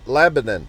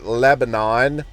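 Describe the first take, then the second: First: The name is said in a local Southern way. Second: The name is said in a general, non-Southern way. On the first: The speaker calls it right. "You got to pronounce it Southern" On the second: The speaker calls it wrong. "You don't call it Lebanon"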